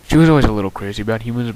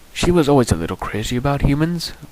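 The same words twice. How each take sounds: First: It is said in the speaker's normal accent. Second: It is said in a British accent.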